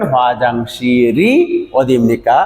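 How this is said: The final consonant links into the next vowel. "একসাথে যদি আপনি মিলিয়ে পড়েন"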